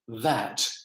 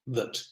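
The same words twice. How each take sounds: First: The word is said in its full, stressed form. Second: The word is said in a weak, unstressed form. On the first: "this word"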